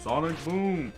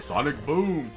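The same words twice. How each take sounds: Both takes have the same delivery.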